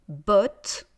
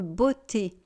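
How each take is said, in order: First: The word ends with a T consonant. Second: The word ends with an added 'ay' vowel. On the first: The speaker calls it right. "On dit botte" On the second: The speaker calls it wrong. "je ne veux pas entendre beauté"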